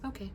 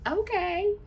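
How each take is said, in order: First: It is said in a curt, displeased tone. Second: It is said in a light, agreeable tone. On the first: Something is wrong. "that means something ain't right" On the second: Everything is fine and agreed. "that means one thing. That's like yeah"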